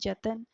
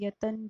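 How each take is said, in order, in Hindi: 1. शब्द j ध्वनि से शुरू होता है। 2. शब्द y ध्वनि से शुरू होता है। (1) "य ना होकर उसको ज की तरह यूज कर देते हैं" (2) "य ना होकर उसको ज की तरह यूज कर देते हैं"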